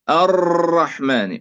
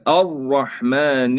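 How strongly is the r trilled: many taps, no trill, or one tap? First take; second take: many taps; no trill. First: The r is trilled with many repeated taps. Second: The r is said without any trill. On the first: "يكرر الراء مثلا ثلاث مرات ... هذا خطأ" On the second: "كثير يقرأ كده. ... أين التكرير؟"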